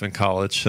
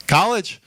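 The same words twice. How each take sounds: First: Said in the usual way. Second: High rising "College?" like a double take; "College?" asked high with a sharp rise; surprised echo. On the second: Acted. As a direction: throw "College?" back up high, amazed. Echoing the man's answer.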